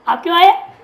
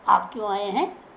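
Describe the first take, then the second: First: It is said in a harsh, threatening tone. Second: It is said in a polite, gentle tone.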